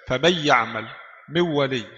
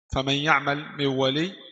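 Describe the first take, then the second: First: The n sound is fully merged. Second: The n sound is only partly merged. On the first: "idgham kamil" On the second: "idgham naqis"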